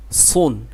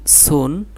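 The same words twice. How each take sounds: First: সুন with a heavy, thick s; thick letter sound. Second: সুন with a thin, light s; thin letter sound. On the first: Teacher comparing two letters for students, thick s in সুন. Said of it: "এটা thick". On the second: Teacher comparing two letters for students, thin s in সুন. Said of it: "এটা চিকন করে". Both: Shown as a demonstration.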